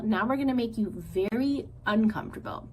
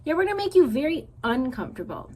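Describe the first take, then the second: First: A hint of menacing sister bear threat; lightly voiced sister bear. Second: Higher, louder, faster echo of his sister; little brother bear eagerly echoing his sister's threat. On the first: Said Nettle. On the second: Acted. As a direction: parrot your sister eagerly.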